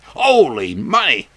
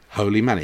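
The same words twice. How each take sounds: First: It is exclaimed like a surprised expression. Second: It is said calmly as a plain statement. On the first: It is an exclamation of surprise. The speaker calls it wrong. "Not as an expression, as somebody might say" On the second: Money is literally holy. The speaker calls it right.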